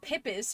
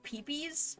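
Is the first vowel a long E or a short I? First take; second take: short I; long E. First: The first vowel is a short I. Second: The first vowel is a long E. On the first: "or a short I" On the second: "With a long E"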